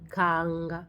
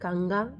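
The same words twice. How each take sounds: First: The first syllable is stressed and drawn out. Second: The stress falls on the last syllable. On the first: The speaker calls it right. "on traîne sur la première syllabe" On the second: The speaker calls it wrong. "la personne a accentué la dernière syllabe de kanga"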